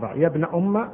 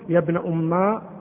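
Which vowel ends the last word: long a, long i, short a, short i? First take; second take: short a; long a. First: The last word ends in a short a vowel. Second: The last word ends in a long a vowel. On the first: The speaker calls it right. "بالفتح" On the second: The speaker calls it wrong. "بالألف"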